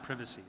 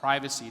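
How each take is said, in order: First: It is said with a non-American pronunciation. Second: It is said with the American pronunciation. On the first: The speaker calls it wrong. "not privacy" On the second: The speaker calls it right. "in the American English, we call it privacy"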